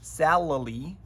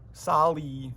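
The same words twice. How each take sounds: First: The middle L sound is doubled and held. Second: The middle L sound is single and short. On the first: The speaker calls it wrong. "it does not have two L sounds. We don't say Sally" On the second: The speaker calls it right. "One L sound is all we need"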